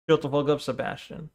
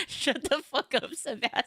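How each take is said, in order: First: Softer, flat deadpan retelling; dry, hushed mock scolding; quiet deadpan repeat. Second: Laughing through the line, slowed; cracking up while saying it; giggly mock scolding; laughing quote. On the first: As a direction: mutter it under your breath. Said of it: "See, this is my problem". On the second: Quoting the meme line laughing.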